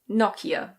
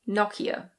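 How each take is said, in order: First: It is said with a British pronunciation. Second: The same.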